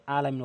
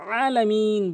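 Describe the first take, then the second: First: "আলামিন" low, with a plain unpressed a; wrong ain demo. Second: "আলামিন" opened with a squeezed throat, high and drawn out; correct ain demo. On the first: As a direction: show the mistake, "আলামিন" low and quick with no throat squeeze. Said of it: "আলামিন বলা যাবে না". ("আলামিন" চাপ ছাড়া, নিচু স্বরে ভুল উচ্চারণ) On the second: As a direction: press into "আলামিন" and stretch its last syllable. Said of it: "আলামিন বলতে হবে". ("আলামিন" গলায় চাপ দিয়ে, টেনে) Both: Shown as a demonstration.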